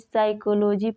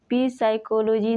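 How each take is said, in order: First: The word begins with an s sound. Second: The word begins with a p sound. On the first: The speaker calls it right. "पढ़ते हैं" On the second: The speaker calls it wrong. "नहीं"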